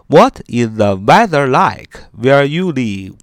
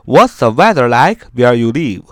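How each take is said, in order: First: It is said at a slow, careful pace. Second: It is said at a quick, connected pace.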